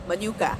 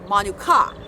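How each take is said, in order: First: The a vowel is short and plain. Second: The marked a vowel is long. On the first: It names honey. The speaker calls it wrong. "I've been pronouncing it Manuka" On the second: It means the bird. The speaker calls it right. "there's a word for that over the uh, the A"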